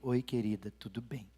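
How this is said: The greeting sounds cold and angry.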